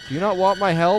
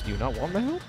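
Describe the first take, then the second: First: Louder and higher, indignant; loud offended question; exasperated repeat. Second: Said in the usual way. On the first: Real, not acted. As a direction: repeat it fed up, pushing harder.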